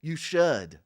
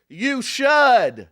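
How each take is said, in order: First: Said in the usual way. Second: Should said firmly, falling; stress on should. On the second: Shown as a demonstration. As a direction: lean on should and drop it. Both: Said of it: "let's say it all together".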